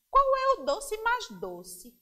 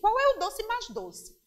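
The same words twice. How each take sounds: First: It is said at a slower, normal pace. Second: It is said at a very fast pace.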